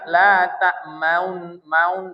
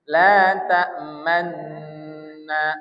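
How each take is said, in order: First: An audible rounded vowel comes before the n. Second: A doubled n follows with no vowel between. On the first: The speaker calls it wrong. "jangan la ta maun maun" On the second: The speaker calls it right. "tapi man manna manna"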